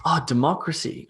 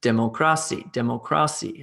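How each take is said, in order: First: "oh", then de-MOC-racy stressed properly; "democracy" with second-syllable stress, as if just understood; dawning recognition. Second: Dem-oh-CRA-cy, twice; "democracy" mis-stressed on the third syllable; wrong-syllable stress. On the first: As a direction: realise the word was "democracy", weight on MOC. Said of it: "and you're like". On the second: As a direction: imitate a learner saying "democracy" with stress on CRA. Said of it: "stressing the wrong syllable". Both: Acted.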